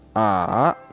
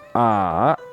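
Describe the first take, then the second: First: The pitch dips low, then comes back up. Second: The pitch dips low, then comes back up.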